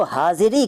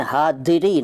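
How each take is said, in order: First: Said in the usual way. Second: हादिरी, slow, with d replacing z. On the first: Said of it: "हादिरी नहीं कहते". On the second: Shown as a demonstration. Teacher showing what is not said, हादिरी with d for z. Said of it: "नहीं कहते".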